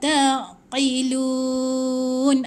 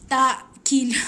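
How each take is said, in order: First: The 'ain' sound is softened with a slight resonance. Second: The 'ain' sound is clipped hard and stiff. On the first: The speaker calls it right. "dia kena ada lemak sikit, lemak-lemak sikit" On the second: The speaker calls it wrong. "Tegak dia macam mana? Kadang kita baca macam ni"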